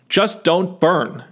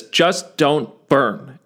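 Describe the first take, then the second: First: "Just" hit hard and slow; slow, stressed "Just don't burn.". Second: "just don't burn" said very slowly, word by word; slow repeated stress. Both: Shown as a demonstration. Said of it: "I'll repeat this".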